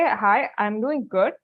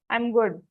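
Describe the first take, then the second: First: Slow, careful "Hi, I'm doing good."; a candidate answering the interviewer's greeting, slowly and politely; polite model answer. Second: Said in the usual way. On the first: Shown as a demonstration. Teacher models the right reply, slowly and politely. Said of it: "You say". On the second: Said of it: "don't say".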